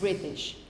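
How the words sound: The middle t is a clear t sound. "if you spoke standard English, standard British English"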